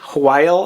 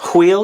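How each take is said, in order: First: The vowel sounds like 'eye' in 'mile'. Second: The vowel sounds like 'ee' in 'feel'. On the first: "I used to say while" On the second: "they said wheel"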